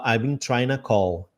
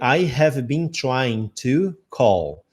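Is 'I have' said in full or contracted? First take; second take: contracted; full. First: 'I have' is shortened to one syllable. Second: 'I have' is said fully as two words. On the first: This is how the singer actually says it. "ele fala" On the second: This is how the lyric is written. "você vai ler"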